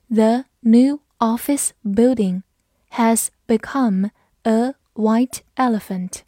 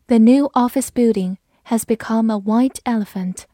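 First: Slow, word by word, with clear gaps; slow read-through. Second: Said in the usual way. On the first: Shown as a demonstration. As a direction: read it out slowly for learners. (慢读一遍，逐词清晰) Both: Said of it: "好，我们慢读一遍".

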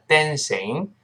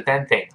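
First: "dancing" with a clear s sound; corrected dancing. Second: "dancing" said as "danthing", with a th; wrong dancing. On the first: Teacher corrects own slip for learners, "dancing" with s. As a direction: say "dancing" as "dan-sing", no th. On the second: Teacher repeats own mistake to correct it, "danthing". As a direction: put the tongue out for a th in "dancing". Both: Shown as a demonstration. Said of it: "不是dancing啊，dancing".

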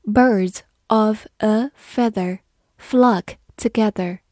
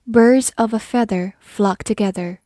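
First: "Birds of a feather flock together" said slowly, word by word; slow read. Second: Said in the usual way. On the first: Shown as a demonstration. Teacher reads the proverb slowly to the class. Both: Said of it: "我们慢慢来读".

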